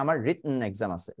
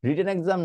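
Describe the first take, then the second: First: "রিটন" as rit-n, T swallowed; "রিটন" with no vowel after the stopped T; glottal stop T. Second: Said in the usual way. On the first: Shown as a demonstration. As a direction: catch breath in "রিটন" before a hummed n. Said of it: "আপনি বলার চেষ্টা করেন". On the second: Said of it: "রিটেন exam না বলে".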